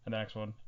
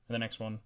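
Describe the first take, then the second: No difference in how they are said.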